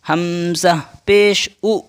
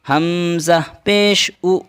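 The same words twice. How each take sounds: Both takes have the same delivery.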